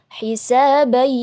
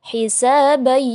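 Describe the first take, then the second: The two takes are said the same way.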